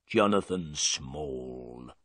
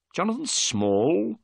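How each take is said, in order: First: Low and slow, a sullen prisoner naming himself; drawn out, low and grim. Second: Higher, slower, rising on the name; surprised repeat. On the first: Prisoner answering Holmes, low and slow. Prisoner giving his name. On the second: Holmes echoing the prisoner's name, surprised rising question. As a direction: echo the name back in surprise. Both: Acted.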